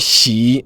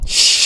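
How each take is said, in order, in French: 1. La syllabe se termine par une voyelle 'ee' nette. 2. La syllabe n'a pas de voyelle 'ee' nette.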